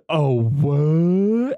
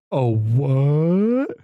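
First: A light yokel voice, loud and high, with a rising "what"; yokel impression again. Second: A light yokel voice, loud, with a rising startled "what"; imitating a yokel. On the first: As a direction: replay the startled local, like a soundboard clip. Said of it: "I want that as on my soundboard". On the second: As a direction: play the dumb local, caught off guard. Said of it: "God, I love the yokels".

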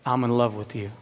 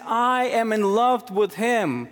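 First: Tender whisper of love. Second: Higher, slower, proclaimed declaration of love; voicing God's love. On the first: Acted. Pastor voicing God's love to each believer, low and tender. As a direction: drop the voice and say it gently to each listener. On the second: Pastor voicing God the Father about his son, proclaimed and slow. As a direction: declare it from the pulpit, drawn out.

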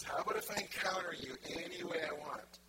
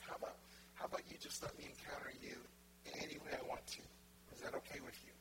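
First: Louder, projected question; voicing God with more force; emphatic divine request. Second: Soft, tender asking; hushed, intimate offer; gentle divine request. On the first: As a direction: put the same offer boldly and clearly. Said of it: "He says". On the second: Acted. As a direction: ask softly, as God inviting permission. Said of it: "And he's like".

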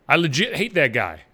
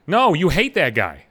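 First: Imitating someone saying I legit hate that guy; mock casual I legit hate that guy; mocking quote. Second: Said in the usual way. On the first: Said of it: "they'll say legit".

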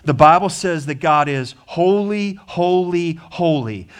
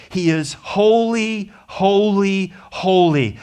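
First: Said in the usual way. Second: Each "holy" lifted higher, "He is holy" slow and high; emphatic triple holy. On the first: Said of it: "Not merely that he is holy". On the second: Shown as a demonstration. Preacher to his congregation, pressing God's holiness, emphatic triple stress. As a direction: lean hard on every "holy", the first one slowest. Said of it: "Not merely that he is holy or even holy, holy".

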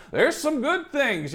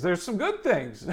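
First: Higher, slow and deliberate; emphatic. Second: Soft chuckle through the words; laughing. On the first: Preacher stressing it to his congregation, slow and high. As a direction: lift it up and lean on good. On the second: Preacher chuckling to his congregation, laughing softly. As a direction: laugh it out quietly. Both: Real, not acted. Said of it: "repeats the line differently".

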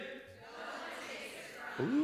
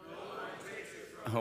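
First: Chanted, women answer with sass, high; chanted, say it with attitude, ladies; sassy women's chant. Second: Chanted, the men answer low; chanted, low, heavy group response from the men; men's chant. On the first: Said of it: "you know that had some attitude". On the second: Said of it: "Men, let's say it". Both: Shown as a demonstration.

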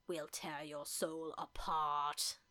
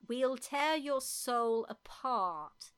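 First: Low, slow menacing line with a German tinge; mock German accent. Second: Put-on slow, deliberate English-accented threat. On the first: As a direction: growl it out like a German villain. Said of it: "Like German?". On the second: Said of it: "That's English, isn't it?".

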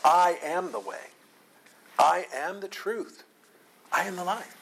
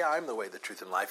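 First: "I" stressed and raised in pitch at the start of each statement; emphatic I AM. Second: Said in the usual way. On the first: Shown as a demonstration. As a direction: hit every "I am" high and deliberate, a separate declaration each time. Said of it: "Jesus is emphasizing this fact". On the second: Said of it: "He doesn't merely say".

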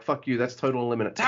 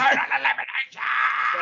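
First: Said in the usual way. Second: "Total elimination" flung up high like a hyped commentator's call; Joey Styles call. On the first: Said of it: "I see that move and I'm like". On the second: Retold or imitated. Cohost mimicking the wrestling commentator, hyped high call. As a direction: belt out "Total elimination" the way a TV announcer names a move. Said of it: "Like Joey Styles".

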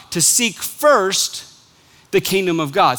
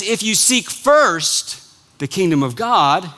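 First: Slow, leaning hard on "seek" in "to seek first"; stress on seek. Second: Slow, punching "first" in "If you seek first"; stress on first. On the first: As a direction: stretch out "seek", let "first" trail off. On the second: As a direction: land the weight on "first", not "seek". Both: Shown as a demonstration. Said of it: "you've got the emphasis on the wrong syllable".

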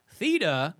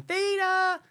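First: Said in the usual way. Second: High-pitched mimicking cry of "Theta!"; character's high call. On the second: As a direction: imitate her calling out the name, pitched way up. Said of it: "She's always saying".

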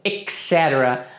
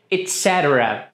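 First: "et cetera" said as ek setera, with a K sound; wrong pronunciation. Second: "et cetera" begins with a clear et; correct pronunciation. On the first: Teacher shows students the mistake: "et cetera" as ek setera. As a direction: start "et cetera" with ek instead of et. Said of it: "algumas pessoas pronunciam como". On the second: Teacher models the right form for students: "et cetera" with et. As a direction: say "et cetera" as et setera, T not K. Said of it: "seria et cetera". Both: Shown as a demonstration.

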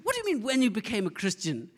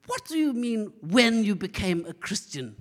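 First: Imitated gran, proper English accent, higher pitch; mock-indignant question in an English accent; good English accent. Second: Indignant gran in emphatic British English; British accent. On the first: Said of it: "speaking with good English accent". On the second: Retold or imitated. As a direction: put on an affronted British accent, louder. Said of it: "she speaks with this British accent".

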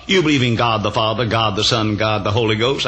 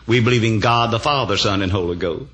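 First: GOD repeated before Father, Son and Ghost, ending on a rise; separate persons listed. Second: "God the Father, Son, and Holy Ghost" as one unit, falling to a close; joined as one. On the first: Challenger quizzing the preacher on three gods, "God" restated for each person, rising on "Ghost". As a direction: set out "God the Father, God the Son, God the Holy Ghost" one by one, questioning.

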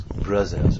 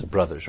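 First: "brothers" with a French z in place of th; French-accented mispronunciation. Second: Said in the usual way. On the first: Retold or imitated. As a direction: say "brothers" like a French learner, "bruzzers". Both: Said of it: "he starts calling us brothers".

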